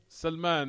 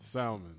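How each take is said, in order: First: It is pronounced as the Arabic name Salman. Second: It is pronounced like the English fish word. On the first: The speaker calls it right. "Salman, not salmon" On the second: The speaker calls it wrong. "Like he's a fish"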